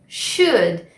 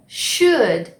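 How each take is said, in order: Both takes have the same delivery.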